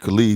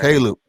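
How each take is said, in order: First: The name is said with a Missouri pronunciation. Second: The name is said with its standard pronunciation. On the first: This is how people back home say it. The speaker calls it wrong. "that's how we pronounce it" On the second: This is the name's proper form. The speaker calls it right. "It's Caleb, man"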